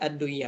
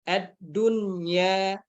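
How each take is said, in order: First: The n sound is merged away before y. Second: The n sound is pronounced clearly before y. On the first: The meaning of the word becomes confused. The speaker calls it wrong. "Bukan ad-duya" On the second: The meaning of the word stays correct. The speaker calls it right. "dia dibaca jelas ya"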